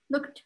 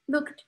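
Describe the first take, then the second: No difference in how they are said.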